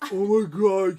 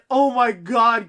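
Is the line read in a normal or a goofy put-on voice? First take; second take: goofy; normal. First: It is read in a goofy, dopey put-on voice. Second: It is read in a plain, normal voice.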